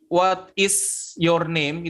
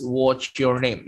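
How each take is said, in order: First: WHAT IS YOUR NAME said slowly, each word separate; full uncontracted form. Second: WHAT'S YOUR NAME with "what is" merged into one syllable; contracted form. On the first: Teacher shows learners the long form, "what is your name" slow and uncontracted. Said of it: "itu kan mungkin kayak kepanjangan". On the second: Teacher shows learners the short form, "what's your name" contracted and slow. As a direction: slowly run WHAT'S into YOUR as "wotch-yor". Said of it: "bisa langsung singkat menjadi what's". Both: Shown as a demonstration.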